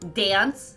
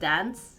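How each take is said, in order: First: The A vowel is strong and drawn out. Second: The A vowel is short and plain. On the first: This is how the speaker's home region says it. "has a strong A ... We're kind of like dance" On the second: This is how other regions say it. "instead of dance"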